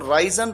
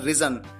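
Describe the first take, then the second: First: The first syllable has a long 'eye' vowel. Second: The first syllable has a short 'i' vowel. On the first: The speaker calls it wrong. "कई बार students इसको राइजन pronounce करते हैं, ये गलत है" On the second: The speaker calls it right. "उसको pronounce किया जाता है रिजन"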